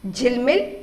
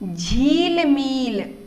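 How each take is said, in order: First: Both i vowels are short. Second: Both i vowels are long. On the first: The speaker calls it right. "शब्द क्या है? झिलमिल है" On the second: The speaker calls it wrong. "अगर हम इसको झीलमील करेंगे तो ये शब्द का अर्थ नहीं है, ये गलत हो जाएगा"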